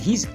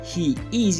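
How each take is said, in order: First: He and is merge into one syllable. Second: He and is are said as two full words. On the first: "you say" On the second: "Instead of saying"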